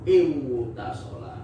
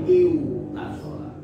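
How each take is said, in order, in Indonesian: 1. Ada bunyi w sebelum t. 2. Ada bunyi w sebelum t.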